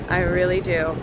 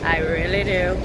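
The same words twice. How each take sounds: First: It is said in a natural, ordinary voice. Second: It is said in an imitated, put-on voice.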